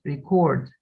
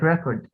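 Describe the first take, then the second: First: "record" stressed on the second syllable, re-CORD; verb stress. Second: "record" stressed on the first syllable, REC-ord; noun stress. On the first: Teacher contrasting noun and verb, "record" stressed at the end. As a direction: push the weight onto the end of "record". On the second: Teacher contrasting noun and verb, "record" stressed up front. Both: Shown as a demonstration. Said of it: "like record, record".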